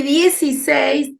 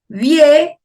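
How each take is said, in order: First: Said in the usual way. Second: "dieciséis" broken into three beats with long pauses; syllable by syllable. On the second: Shown as a demonstration. Teacher showing how we separate syllables, "dieciséis" said in three parts. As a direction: split "dieciséis" as die, ci, séis, pausing after each. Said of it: "cómo separamos en sílabas".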